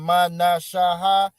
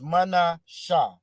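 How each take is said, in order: First: Each syllable is said separately, one by one. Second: The syllables are blended together into fewer parts. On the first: The speaker calls it wrong. "instead of saying" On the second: The speaker calls it right. "it's mana, sha. You blend that sha and that ha together"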